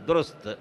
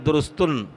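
First: The name ends on a bare, unvoweled t. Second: The name ends with an added -un after t. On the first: The speaker calls it right. "وسين ساكن وتاء موقوف" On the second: The speaker calls it wrong. "لا يقول درستن"

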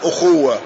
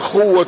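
First: The word begins with a glottal stop and vowel. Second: The word begins directly with the kh sound.

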